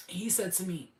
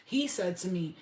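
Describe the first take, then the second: No difference in how they are said.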